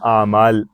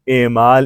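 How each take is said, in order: First: The word begins with an 'a' vowel. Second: The word begins with an 'e' vowel. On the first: The speaker calls it right. "तो ये सारे जमा हैं" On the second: The speaker calls it wrong. "ऐसे नहीं बोलेंगे"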